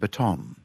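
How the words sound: The stress is on the last syllable.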